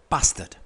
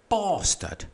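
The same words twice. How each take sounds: First: The first vowel is short, like 'bat'. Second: The first vowel is long, like 'bar'.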